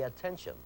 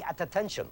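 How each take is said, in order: First: Said in the usual way. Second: ATTENTION split as at-tattention, both Ts sounded; double T sounded twice. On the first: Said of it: "You say attention". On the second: Shown as a demonstration. Teacher showing what not to say, AT ATTENTION with doubled T. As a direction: add a separate AT before ATTENTION. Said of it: "There's the double T. You do not say".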